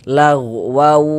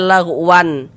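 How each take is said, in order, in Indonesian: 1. Bunyi n menyatu menjadi bunyi w. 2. Kata ini berakhir dengan bunyi n yang jelas. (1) "tapi dibaca lagwaw" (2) "Jangan dibaca lagwan"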